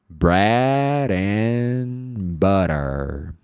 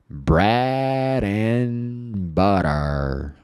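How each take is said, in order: Both takes have the same delivery.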